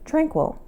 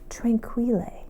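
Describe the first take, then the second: First: The name is said like the English word. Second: The name is said with a Spanish-sounding ending. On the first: "to me it looks like it should be pronounced Tranquil" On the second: "that sounds like Spanish to me"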